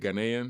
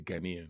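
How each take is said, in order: First: The word is said the American way. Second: The word is said the African way. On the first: "I think Americans say Ghanaian" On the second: "but in Africa you say Ghanaian"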